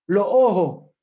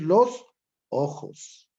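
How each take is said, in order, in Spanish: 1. La s final se omite. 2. La s final se pronuncia claramente. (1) "tenemos la aspiración de la S al final de la palabra, es decir, no pronunciamos" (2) "por decir los ojos"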